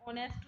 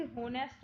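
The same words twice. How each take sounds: First: ऑनेस्ट with a silent h, opening on the o; correct honest. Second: होनेस्ट with the h sounded; wrong honest. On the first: Teacher gives students the right honest, h silent. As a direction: say ऑनेस्ट starting on the vowel. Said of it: "इतना ही बोला जाता है". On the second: Teacher imitates the common mistake, h pronounced. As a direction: say होनेस्ट with an h up front. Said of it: "but ऑनेस्ट होता है ये". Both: Shown as a demonstration.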